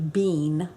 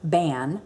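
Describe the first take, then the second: First: The vowel is a long 'ee' sound. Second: The vowel is a short 'a' sound. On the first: This is how English speakers would read it. "Our way would be bean" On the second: This is how Gaelic speakers say it. "but they pronounce it ban"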